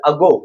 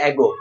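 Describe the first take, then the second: First: "ago" opening on a schwa, "uh-GO"; correct pronunciation. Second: "एगो" with an opening "ay" sound; learners' mistaken "एगो", first vowel too full; common mispronunciation. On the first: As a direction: say "ago" with a weak first vowel. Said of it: "ये एगो नहीं है". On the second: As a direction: say "एगो" starting like the letter A. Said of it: "बहुत से इसे पढ़ते हैं". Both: Shown as a demonstration.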